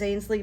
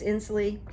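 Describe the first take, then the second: First: The name begins with an 'ain' sound. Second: The name begins with an 'in' sound. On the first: The speaker calls it wrong. "I thought it was Ainsley" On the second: The speaker calls it right. "but it's Inslee"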